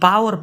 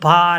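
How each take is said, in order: First: A 'w' sound is heard between the vowels. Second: No 'w' sound is heard between the vowels. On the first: The speaker calls it wrong. "पावर पढ़ते हैं वो गलत है" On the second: The speaker calls it right. "ये पार है। ... ये silent है"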